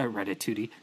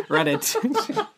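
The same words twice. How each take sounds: First: Said in the usual way. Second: A silly high-pitched giggle on the word; high laughing squeal. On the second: Pretend. Joking repetition of the title.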